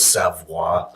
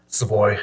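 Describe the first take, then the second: First: The name is pronounced the French way. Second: The name is pronounced the American English way. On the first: "The French is Savoie" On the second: "That's the Americanized uh, pronunciation"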